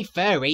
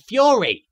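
First: Said in the usual way. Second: "fury" said with a y-glide after the f; "fury" opening like "few"; furry as fury. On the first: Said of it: "he didn't say furry, he said". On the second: Acted. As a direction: say "fury" as a Brooklyn take on furry. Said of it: "as in the kind I have".

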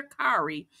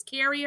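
First: "Kari" said with an open "ah", KAR-ee; "Kari" with the first syllable like "car"; alternative name pronunciation. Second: "Carrie" said with an "air" vowel, KAIR-ee; "Carrie" with the first syllable like "care"; first-vowel variant. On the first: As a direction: say "Kari" to rhyme with "starry". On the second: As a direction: say "Carrie" to rhyme with "berry". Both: Shown as a demonstration. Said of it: "I don't know if it's Carrie or Kari".

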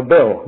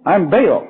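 First: Said in the usual way. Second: "Baal" for Bill, one long drawn Southern vowel; Bill drawled as "Baal" in a Southern accent. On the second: Retold or imitated. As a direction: say "I'm Baal" stretching Bill into "Baal". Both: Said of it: "Bill, you know".

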